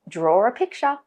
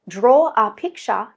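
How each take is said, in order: First: An R sound links 'draw' to 'a'. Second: The words are said with no R between them.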